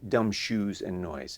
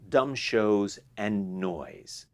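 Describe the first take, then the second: First: The second word rhymes with 'two'. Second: The second word rhymes with 'go'. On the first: The speaker calls it wrong. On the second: The speaker calls it right.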